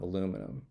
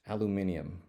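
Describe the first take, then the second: First: It is said with an American pronunciation. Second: It is said with a British pronunciation.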